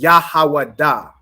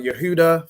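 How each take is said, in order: First: The name has only 'ah' vowel sounds. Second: The name has 'eh' and 'oo' vowel sounds. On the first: The speaker calls it right. "You only have ah and I sounds" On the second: The speaker calls it wrong. "how people say"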